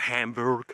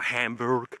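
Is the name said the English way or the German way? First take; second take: English; English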